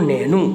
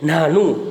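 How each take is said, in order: First: The first vowel is a mid 'e' sound. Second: The first vowel is an open 'aa' sound. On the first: This is how the dialect speakers say it. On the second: This is the standard form of the word.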